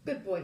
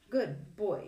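First: Melancholy, uncertain. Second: Praising dog. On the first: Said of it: "voice sounding melancholy and uncertain". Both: A narrator's reading.

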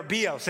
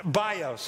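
First: "bios" said BEE-ohs; alternative Greek pronunciation. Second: "bios" said BY-ohs, English style; anglicized pronunciation. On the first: Preacher offering church another reading, "bios" pronounced BEE-ohs. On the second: Preacher introducing a Greek word to church, "bios" anglicized as BY-ohs. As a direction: say "bios" with a long i, like "buy". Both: Shown as a demonstration. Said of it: "I could try to do it in the Greek".

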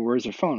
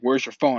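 First: Said in the usual way. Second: Louder, imitating an angry demand; mild mock yell of someone demanding an answer; retold yelling. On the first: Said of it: "And then they're like". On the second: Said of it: "yelling at me, like".

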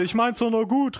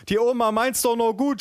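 First: Lightly voiced high-pitched grandma; mock protest, called out high; grandma calling out. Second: High, wailing aunt, hammed-up; mock sob. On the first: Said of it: "rief meine Oma". (Oma, leicht gespielt, hoch rufend) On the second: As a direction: plead tearfully in a comic high voice. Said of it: "schluchzte meine Tante". (gespielt schluchzende Tante) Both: A narrator's reading.

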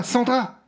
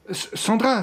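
First: Panicked shout. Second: A startled, rising cry of her name; alarmed call. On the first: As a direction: shout for her as she collapses. (cri paniqué, plus aigu et fort) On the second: (appel inquiet, voix qui monte) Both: Acted. Johnny voit Sandra s'écrouler.

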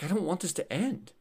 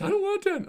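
First: Put-on slightly raised, softly upset child's plea; retold crying child. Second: High-pitched mock wail of a child; imitated crying child. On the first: Nine-year-old son to father at a wedding, mildly imitated tearful plea. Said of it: "he's, like, crying". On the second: Nine-year-old son protesting the wedding's end, high imitated crying. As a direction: imitate a little boy getting more upset, much higher. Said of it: "then he starts crying more".

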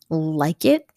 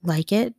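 First: "Like it?" repeated a bit louder. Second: Said in the usual way. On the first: A narrator's reading. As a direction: push "Like it?" out louder the second time. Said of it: "but louder this time". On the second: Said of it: "replied Bruno with a slight laugh".

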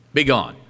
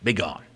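First: Said in the usual way. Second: Calm command. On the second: A narrator's reading. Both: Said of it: "So calmly Jesus said".

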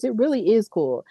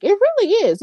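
First: Said in the usual way. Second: Eager, high It really is; excited agreement. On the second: Real, not acted. To her viewers, gushing about Carlito being back: excited, high. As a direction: pitch jumps way up on really.

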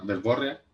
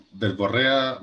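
First: Verborrea with the stress moved back onto BO. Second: Said in the usual way. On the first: Shown as a demonstration. Podcaster unsure how the word is said, stress on BO in verborrea. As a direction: say verborrea as ver-BÓ-rria. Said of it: "tendría tilde en la O". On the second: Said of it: "¿cómo se dice la wea?".

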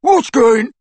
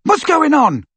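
First: Loud, high jeering echo; mocking mimicry. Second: High, loud worried question; shout. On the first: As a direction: mimic the shouted question, cut short. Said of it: "mimicked Crabbe". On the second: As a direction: shout it from behind a wall. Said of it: "shouted Ron again". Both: A narrator's reading.

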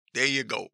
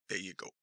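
First: Said in the usual way. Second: Quiet mutter, almost swallowed; muttered under breath. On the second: Real, not acted. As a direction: mutter it to yourself.

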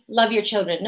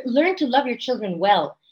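First: Said in the usual way. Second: Firm emphasis on "learn", carried through to "well"; corrective stress on learn. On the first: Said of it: "so when we say". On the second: Shown as a demonstration. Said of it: "no, love your".

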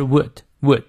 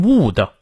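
First: "would" with a short, lax oo; short vowel in WOULD. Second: "would" said wrongly with a long oo, higher; wrong vowel in WOULD. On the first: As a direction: keep the oo in "would" short, as in good. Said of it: "这个would是短乌". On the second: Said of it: "不要念成would". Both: Shown as a demonstration.

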